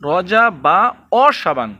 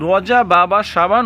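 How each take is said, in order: First: A 'wa' syllable comes right before Shaban. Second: A 'ba' syllable comes right before Shaban. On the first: The speaker calls it right. "সঠিক উচ্চারণ করব" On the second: The speaker calls it wrong. "মূলত এইখানেই এই ভুলটা"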